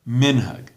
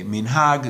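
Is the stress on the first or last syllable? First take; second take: first; last. First: The stress is on the first syllable. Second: The stress is on the last syllable. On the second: This is the modern Israeli pronunciation. "modern Israeli Hebrew ... emphasis on the last syllable"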